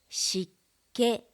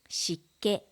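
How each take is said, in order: First: The word is said slowly and carefully. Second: The word is said at natural speed. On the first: "まず単語をゆっくり読みます" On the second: "ナチュラルスピードで読みます"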